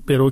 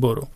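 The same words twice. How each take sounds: First: The first vowel sounds like 'e'. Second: The first vowel sounds like 'o'. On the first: This is the form the rule calls for. "به برو که باید بگیم" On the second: This is the easier form people actually say. "میگیم برو"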